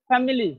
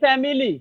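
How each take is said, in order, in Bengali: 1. মাঝের স্বরটি খুব ছোট 'শোয়া'। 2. মাঝের স্বরটি স্পষ্ট 'ঈ'-এর মতো শোনায়। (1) "কিন্তু আসলে এই আইটা হচ্ছে শোয়া, একেবারে শর্ট" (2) "আমরা বলি ফ্যামিলি, আমরা এখানে ই ই এর মতো উচ্চারণ করি"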